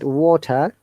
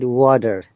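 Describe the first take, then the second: First: The T is a strong, clear T sound. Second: The T sounds like a D, R is pronounced. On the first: "British will pronounce it water" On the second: "American will say it water. T sounds like D, and R must be there"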